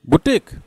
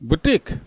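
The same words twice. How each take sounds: First: It is said like 'booteek', long final vowel. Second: It is said like 'booteek', long final vowel.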